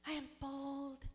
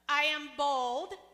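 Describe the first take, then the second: First: It is said timidly, without authority. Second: It is said confidently, with authority.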